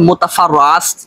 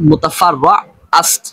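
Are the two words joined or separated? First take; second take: joined; separated. First: The two words run together without a break. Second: The two words are said with a break. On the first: "মিলিয়ে পড়ার কারণে হবে" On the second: "ভেঙে পড়লে উচ্চারণটা হবে এরকম"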